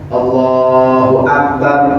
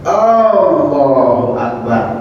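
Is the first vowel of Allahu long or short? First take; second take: short; long. First: The opening vowel of Allahu is short. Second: The opening vowel of Allahu is drawn out long. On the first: The speaker calls it right. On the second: The speaker calls it wrong. "ada jemaah kita yang panjangin alifnya"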